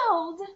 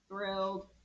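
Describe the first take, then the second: First: It is said in a lively, excited voice. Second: It is said in a flat, mechanical robot voice. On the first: "say thrilled like you are thrilled" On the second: "How about in a robot voice?"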